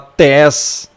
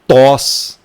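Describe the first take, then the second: First: Only an e vowel follows the t. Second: Only an o vowel follows the t. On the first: "você não vai falar tes" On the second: "você não vai falar aqui tos"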